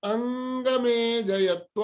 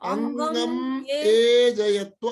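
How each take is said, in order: First: It is said joined as one continuous word. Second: It is split into two parts with a break. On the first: "यससँगै बोल्दाखेरि" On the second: "यसो"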